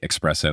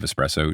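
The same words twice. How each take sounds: First: The word starts with an 'ex' sound. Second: The word starts with an 'es' sound. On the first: The speaker calls it wrong. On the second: The speaker calls it right.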